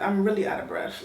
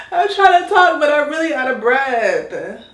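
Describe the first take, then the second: First: Said in the usual way. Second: Much higher and louder, a burst through heavy breathing; breathless exclaim. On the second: Real, not acted. To viewers mid-wash, a loud breathless complaint. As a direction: blurt it out gasping for air.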